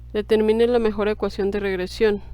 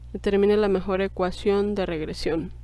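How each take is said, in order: Both takes have the same delivery.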